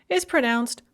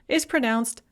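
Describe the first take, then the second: The two takes are said the same way.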